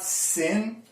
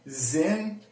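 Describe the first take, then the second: First: It begins with a hissing s sound. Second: It begins with a buzzing z sound. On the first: "it's not sin" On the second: "it's not zin"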